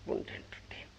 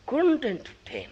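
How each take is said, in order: First: Whispered echo; whispering. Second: Said in the usual way. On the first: A narrator's reading. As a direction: breathe the words, no voice. Repeated, whispered.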